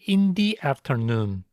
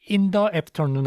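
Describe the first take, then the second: First: 'The' is pronounced with a long 'dee' sound. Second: 'The' is pronounced with a short 'duh' sound. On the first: The speaker calls it right. "D에 모음 발음이 오면은 D라고 발음을 해요" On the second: The speaker calls it wrong. "아니고"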